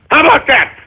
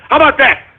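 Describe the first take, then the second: No difference in how they are said.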